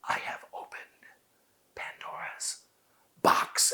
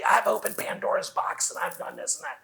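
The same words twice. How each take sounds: First: Slow, whispered I have opened Pandora's box; whispered with long pauses between words; slow and hushed. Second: Rushed original delivery. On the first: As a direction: hush it, slow, spaced out. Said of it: "No, no". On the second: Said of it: "my original delivery was probably". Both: Shown as a demonstration.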